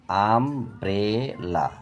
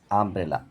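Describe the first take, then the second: First: আমব্রেলা very slow as আম, ব্রে, লা; split in three syllables. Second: Said in the usual way. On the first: Shown as a demonstration. Teacher demonstrating syllables, আমব্রেলা slowly in three parts. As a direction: stretch each beat of আমব্রেলা. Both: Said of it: "তিনবারে ভেঙে উচ্চারণ করা হয়".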